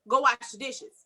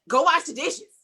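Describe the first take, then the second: First: The request sounds light and friendly. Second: The request sounds sharp and harsh. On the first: This is how the speaker meant it. "That's how I said it in my head" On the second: This is how the listener heard it. "but it was received as"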